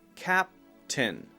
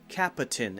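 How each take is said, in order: First: The p goes straight into the t. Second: An extra sound comes between the p and t. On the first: The speaker calls it right. "go directly into the T sound" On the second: The speaker calls it wrong. "add an extra sound between p and t"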